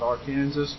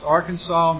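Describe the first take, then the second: First: The name is said a non-local way. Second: The name is said the local way. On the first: This is a mistaken way to say the name. The speaker calls it wrong. "not Arkansas" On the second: This is how the name is properly said. The speaker calls it right. "That's pronounced Arkansas"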